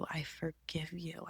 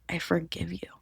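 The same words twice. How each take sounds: First: Very soft unvoiced whisper; forgiving herself in a whisper. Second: Said in the usual way. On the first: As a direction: barely breathe it out. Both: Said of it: "I began to whisper".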